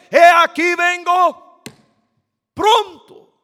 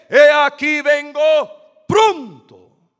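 First: It is said with more force. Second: It is said with ordinary force.

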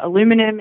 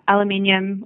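First: The word is said the American way. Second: The word is said the non-American way.

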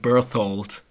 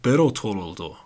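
First: The name is said with an English pronunciation. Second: The name is said with a Japanese pronunciation. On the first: "in English I would call him Berthold" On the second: "Japanese people go like Berthold"

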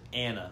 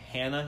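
First: The name starts straight on the vowel. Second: The name starts with an h sound. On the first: "he says Anna. And it's really weird" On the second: "rather than saying Hannah"

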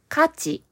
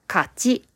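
First: The pitch is high on the first syllable. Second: The pitch is high on the second syllable. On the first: It means value or worth. "一つ目の勝ちは、そのものがどれだけ役に立つか、またはどれだけ大切かという度合いのことです。" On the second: It means a win or victory. "二つ目の勝ちは、試合やゲームなどの勝負に勝つことです。"

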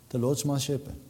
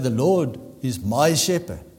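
First: It is read out casually, without conviction. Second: It is said firmly, with full conviction.

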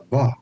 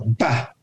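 First: The first consonant is said soft. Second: The first consonant is said hard. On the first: The letter has no dot in its middle. "That's how it becomes soft" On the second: The letter has a dot in its middle. "it means it's a hard pronunciation"

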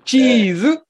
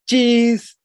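First: It is said with a Japanese accent. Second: It is said with an American English accent.

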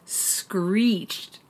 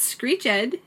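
First: The word is said with one syllable. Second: The word is said with two syllables. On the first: The speaker calls it right. "It's screeched" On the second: The speaker calls it wrong. "It's not screeched"

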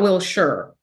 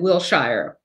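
First: It is said with the local pronunciation. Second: It is said with an outsider's pronunciation. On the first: The speaker is from the area. The speaker calls it right. "not Wilshire. Everyone who lives here knows it's Wilshire" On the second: The speaker is not from the area. The speaker calls it wrong. "The guy said Wilshire"

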